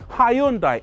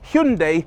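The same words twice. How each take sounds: First: The word does not rhyme with Sunday. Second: The word rhymes with Sunday. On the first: This is the pronunciation used in the UK. The speaker calls it right. "Hyundai taught us to say Hyundai" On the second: This is the pronunciation used in America. The speaker calls it wrong. "it's pronounced Hyundai like Sunday"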